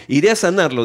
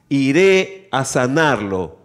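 First: Quicker recap of the quote; brisk re-reading. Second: Very slow, weighty scripture quote; solemn proclamation. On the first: Preacher resuming the passage at Jesus' answer, brisk re-reading. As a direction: read it through without lingering. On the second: Preacher reading Jesus' answer to the officer, slow proclamation. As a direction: draw out each word of Jesus' promise. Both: A narrator's reading.

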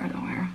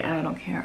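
First: Softer whispered repeat. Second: Said in the usual way. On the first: Real, not acted. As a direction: let it fade to a whisper.

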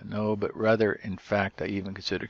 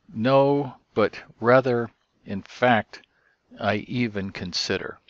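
First: Said in the usual way. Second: Emphatic first take, No and rather raised and louder; wooden translation. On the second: Shown as a demonstration. Teacher stressing a wooden translation, louder. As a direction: stress No and rather, then ease off. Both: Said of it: "we could translate it woodenly".

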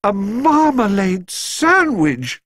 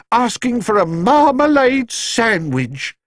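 First: Marmalade sandwich exclaimed high, very slow, amazed; amazed exclamation. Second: High, slow news of marmalade sandwich; flustered housekeeper. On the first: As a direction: marmalade sandwich stretched out in delighted surprise. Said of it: "exclaimed Missus Brown". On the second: Mrs Bird reports news. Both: A narrator's reading.

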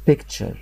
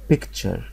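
Both takes have the same delivery.

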